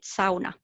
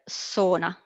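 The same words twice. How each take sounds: First: It is said with the native Finnish pronunciation. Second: It is said with a common international pronunciation. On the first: "we pronounce it sauna" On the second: "Everyone around the world knows the word sauna"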